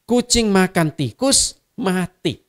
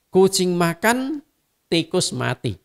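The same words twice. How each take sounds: First: There is a pause after the word 'tikus'. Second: There is a pause after the word 'makan'. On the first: "Hanya tanda koma saya geser kiri kanan saja" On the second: "Hanya tanda koma saya geser kiri kanan saja"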